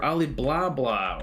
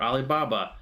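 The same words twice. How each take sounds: First: "Ali Blah Blah" said as a silly version of Alibaba, blah blah; joking mispronunciation. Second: Said in the usual way. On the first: Shown as a demonstration. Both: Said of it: "asking for Ali Blah Blah or, or Alibaba".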